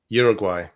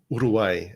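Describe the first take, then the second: First: The name is pronounced with English sounds. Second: The name is pronounced with Spanish sounds.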